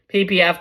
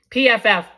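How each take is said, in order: First: "P P F" said as P, P, F with a doubled P; letters "P P F" with P twice, then F; wrong letters. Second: "P F F" said as P, F, F with a doubled F; letters "P F F" louder, P once then F twice; corrected letters. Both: Real, not acted. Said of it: "It's actually P F F".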